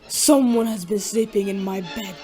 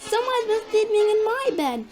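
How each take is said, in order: First: It is said in a great big voice. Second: It is said in a little voice.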